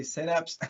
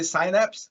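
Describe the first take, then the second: First: "synapse" with a short "sin" first syllable; Brazilian pronunciation. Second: "synapse" with a long "sigh" first syllable; standard English pronunciation. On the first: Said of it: "that's how we say that in Brazil". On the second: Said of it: "So I don't say synapse, I say synapse". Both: Shown as a demonstration.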